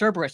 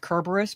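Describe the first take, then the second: First: The name begins with an s sound. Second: The name begins with a k sound. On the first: It follows the common modern usage. "it's pronounced Cerberus" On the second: It follows the ancient Greek sound. "when I pronounce Kerberos"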